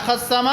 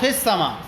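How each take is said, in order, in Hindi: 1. पहला स्वर 'a' की आवाज़ है। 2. पहला स्वर 'i' की आवाज़ है।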